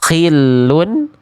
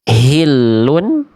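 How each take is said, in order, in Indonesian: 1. Diawali dengan bunyi kh yang serak. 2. Diawali dengan h berat dari tenggorokan dalam. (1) "berubah menjadi huruf kho" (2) "dibaca menjadi H ya, atau saya sering sebut H besar ... dilafalkan dari pangkal tenggorokan"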